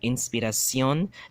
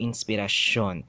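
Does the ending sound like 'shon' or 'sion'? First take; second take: sion; shon. First: The ending is said with an s sound. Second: The ending is said with a sh sound. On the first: "from a sion" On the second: "they change it into a shon"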